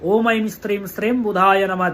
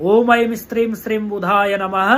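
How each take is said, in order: Both takes have the same delivery.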